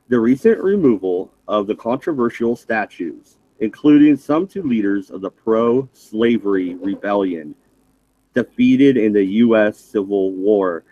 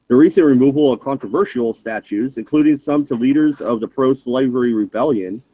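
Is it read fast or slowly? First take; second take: slowly; fast. First: It is read at a slower pace. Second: It is read at a faster pace.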